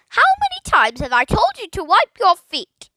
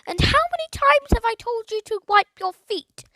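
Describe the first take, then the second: First: High, loud squawking nag; scolding parrot. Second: High, loud nagging squawk; scolding parrot. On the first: Parrot nagging Philip from the tree, loud squawk. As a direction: squawk it down from the branch. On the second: Parrot nagging the boy about his feet, high squawk. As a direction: nag like a cross old aunt. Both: A narrator's reading.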